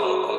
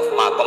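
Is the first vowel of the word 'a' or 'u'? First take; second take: u; a. First: The first vowel is a rounded 'u' sound. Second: The first vowel is an open 'a' sound. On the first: "Di sini umumnya baca mukom apa makom" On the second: "Saya juga mau baca makom apa mukom"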